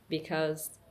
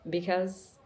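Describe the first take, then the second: No difference in how they are said.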